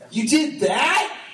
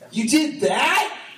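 First: It sounds upset and confused at once. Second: It sounds upset and confused at once.

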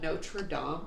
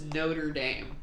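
First: It is pronounced the French way. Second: It is pronounced the American way. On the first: This names the cathedral in France. "Why is that called Notre Dame" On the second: This names the school in America. "but the school is Notre Dame? Because we're American"

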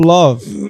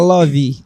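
First: It ends cleanly on the v sound. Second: It ends with an added i vowel.

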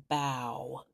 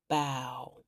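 The two takes are said the same way.

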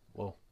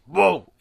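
First: The word is said softly and calmly. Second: The word is shouted loudly. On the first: The speaker calls it right. "Just use your quiet voice" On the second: The speaker calls it wrong. "they're really, really loud about it"

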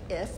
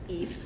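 First: The vowel is a short i sound. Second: The vowel is a long ee sound. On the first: "which people will say if" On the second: "You've never heard that name"

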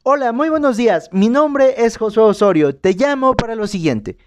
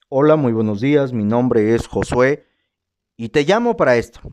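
First: It is said with a smile in the voice. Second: It is said in a flat, unsmiling tone.

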